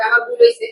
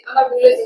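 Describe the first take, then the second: First: High, whiny pretend-crying "আমার ভুল হইছে"; mock tearful sorry. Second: Said in the usual way. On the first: Sister whines "আমার ভুল হইছে" high to tease her sibling.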